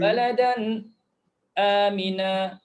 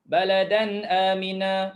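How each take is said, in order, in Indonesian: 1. Ada jeda singkat sebelum amina. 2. Kata-katanya bersambung tanpa jeda. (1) "itu saktah" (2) "itu tahqiq"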